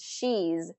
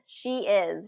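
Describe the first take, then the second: First: One syllable ending in a z sound. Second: Two full words are said separately.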